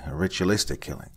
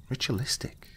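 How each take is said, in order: First: Said in the usual way. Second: Ritualistic, rising high and soft in disbelief; incredulous question. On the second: A narrator's reading. Young officer echoing the investigator in disbelief, soft rising echo. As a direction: echo the word back in shock. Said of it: "the officer asked".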